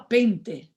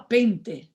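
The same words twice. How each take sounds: First: It is said with a German accent. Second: The same.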